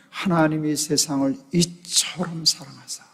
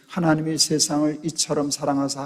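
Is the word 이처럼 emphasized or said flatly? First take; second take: emphasized; flat. First: The word 이처럼 carries strong emphasis. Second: The sentence is said flatly without emphasis. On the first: The speaker understands what the word means. The speaker calls it right. "거기에 강조가 박혀야 되는데" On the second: The speaker does not grasp what the word means. The speaker calls it wrong. "뜻없이 감정 없이"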